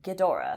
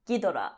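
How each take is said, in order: First: Said with English pronunciation and a softer G. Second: Said with Japanese pronunciation, with no lingering sounds. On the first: "to make the softer G, I guess in English, that's how they wrote it" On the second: "in Japanese, it's spelled like Gi-do-ra, Ghidorah. Like mm-hmm. There's no lingering"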